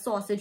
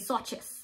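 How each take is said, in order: First: The word ends after two syllables. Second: The word ends with an extra 'es' syllable. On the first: "don't pronounce it as sausage" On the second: "We say sausages"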